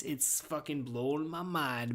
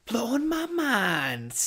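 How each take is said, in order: First: Said in the usual way. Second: High, slow, eerie voice for the phrase; spooky drawn-out echo. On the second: Acted. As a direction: stretch it out like a ghostly echo. Repeats phrase slowly in odd voice.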